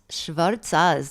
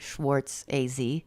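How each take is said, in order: First: The name is said in a Jewish-grandmother style. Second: The name is said in an American style. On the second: "That would be probably how American people would say it"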